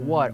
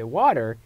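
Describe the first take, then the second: First: It is said in a British accent. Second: It is said in an American accent. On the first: "people in the U A, U K they say water" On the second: "the people in the U S they say water"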